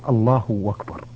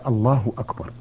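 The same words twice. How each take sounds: First: Akbar begins with a w sound. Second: Akbar begins with a glottal stop. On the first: The speaker calls it wrong. "أسمع كثير من الناس يقول" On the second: The speaker calls it right. "وليس"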